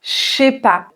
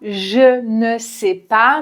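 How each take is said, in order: First: The phrase is shortened, dropping sounds. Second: Every syllable of the phrase is pronounced fully. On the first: This is the most common way of speaking. "on va dire" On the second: This careful form is not what people usually say. "on ne dit pas"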